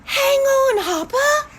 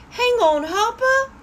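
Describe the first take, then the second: First: Group shout. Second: Demo shout. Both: Shown as a demonstration. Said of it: "Let's say it together".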